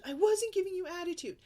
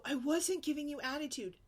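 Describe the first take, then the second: First: High, loud indignant denial; defensive kid denial. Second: Higher indignant whine; mock kid denial. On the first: Retold or imitated. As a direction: whine it like a denying child. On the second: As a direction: imitate the daughter denying it. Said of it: "then she'll go".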